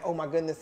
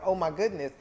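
First: It sounds sad and dismayed. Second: It sounds excited and eager.

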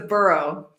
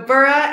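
First: The word is said the New York way. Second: The word sounds like 'bora', as in England. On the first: "and in New York, it's a borough" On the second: "Bora, like Bora Bora"

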